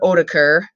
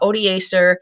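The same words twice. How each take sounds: First: The name is pronounced in a Germanic way. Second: The name is pronounced in a Latin way. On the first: "or Germanic uh, pronunciation" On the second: "if you want to go Latin"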